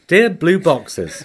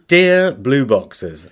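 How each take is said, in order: First: Mock formal. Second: Drawn-out pompous greeting; slow mock formal. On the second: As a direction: stretch it out grandly. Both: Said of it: "Makes me sound childish".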